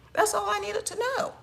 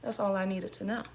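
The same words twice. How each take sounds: First: High, mocking sing-song; sarcastic sing-song. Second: Said in the usual way. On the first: Repeated, pitched way up.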